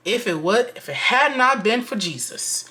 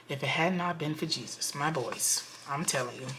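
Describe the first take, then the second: First: Higher, louder stress on "had not been for Jesus"; emphatic vow. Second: Hushed insistence. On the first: Vlogger telling viewers she nearly blew up, emphatic vow. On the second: Vlogger confiding to viewers after holding back, hushed insistence. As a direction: drop the volume and mean it. Repeats vow under her breath. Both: Real, not acted.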